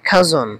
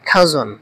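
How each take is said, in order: Both takes have the same delivery.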